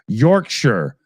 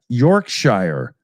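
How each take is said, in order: First: The ending is reduced to a short 'sher' sound. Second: The ending is said fully, like 'shire'. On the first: The speaker calls it wrong. "Uh, incorrect" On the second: The speaker calls it right. "There we go"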